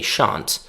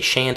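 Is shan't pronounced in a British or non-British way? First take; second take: British; non-British. First: It is pronounced in a British way. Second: It is pronounced in a non-British way. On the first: "a British speaker would say shan't" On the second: "a British speaker would not say shan't"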